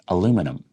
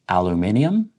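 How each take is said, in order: First: It is said in a North American accent. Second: It is said in a British accent.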